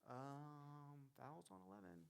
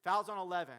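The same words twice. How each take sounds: First: Very soft, low, hesitant mumble. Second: Loud, firm announcement; confident referee call. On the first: Unsure referee announcing a foul, timid and quiet. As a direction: shrink away as you make the call. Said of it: "Are you down and low?". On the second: Referee announcing a foul with purpose, loud and sure. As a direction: project it with authority. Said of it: "Because this makes the total difference". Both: Shown as a demonstration.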